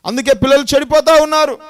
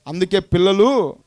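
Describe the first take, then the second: First: Higher and louder, stressing చెడిపోతా; emphatic loud sermon repeat. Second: Said in the usual way. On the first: Acted. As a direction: punch the repeat with చెడిపోతా hit hard and falling. Repeated phrase, second louder.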